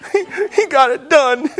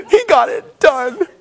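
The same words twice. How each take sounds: First: High, choked-up mock weeping; teary. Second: Slow, high, sobbing and laughing at once; teary laugh. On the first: Preacher retelling a movie moment, high and teary. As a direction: squeeze the words out through tears. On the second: Retold or imitated. Preacher imitating himself crying at a movie, slow sobbing laugh. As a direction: drag it out as tears and laughter mix. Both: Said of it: "I cry in every movie".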